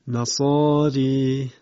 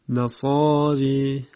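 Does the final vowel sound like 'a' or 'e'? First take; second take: e; e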